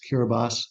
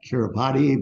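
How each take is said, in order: First: It is pronounced the local way, unlike spelling. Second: It is pronounced just as the spelling suggests. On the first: The speaker calls it right. "the way they pronounce it is Kiribati" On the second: The speaker calls it wrong. "It looks like Kiribati"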